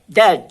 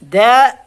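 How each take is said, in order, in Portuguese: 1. A consoante do meio é um som de d claro. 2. A consoante do meio é um tepe, um r rápido. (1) "esse aqui, o, os britânicos" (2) "O D tem som de R. Isso aí nos Estados Unidos"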